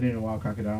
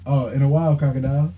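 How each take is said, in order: First: Noticeably softer, muttered under the breath; said low. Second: Said in the usual way. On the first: Retold or imitated. Brother mutters it walking off from the bartender. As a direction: say it low so she barely hears. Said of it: "And he said". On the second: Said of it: "So I said".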